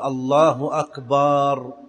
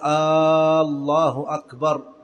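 First: The vowel after b in the second word is drawn out. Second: The opening vowel of the first word is drawn out. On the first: It refers to drums. "لا يصح أن يمد الباء في أكبر" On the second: It turns into a question. "فلا يمد الهمزة في الله، فلا يقول الله أكبر، هذا خطأ"

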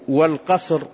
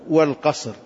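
The two takes are said the same way.

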